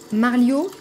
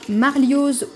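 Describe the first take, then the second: First: The final z sound is left silent. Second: The final z sound is pronounced. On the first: The speaker calls it right. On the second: The speaker calls it wrong.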